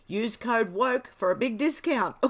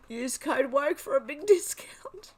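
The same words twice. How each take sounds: First: Said in the usual way. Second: High, slow, struggling not to laugh; helplessly tickled, pitched up; laughing re-read. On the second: Real, not acted. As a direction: read it out while cracking up. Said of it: "I'm laughing so much".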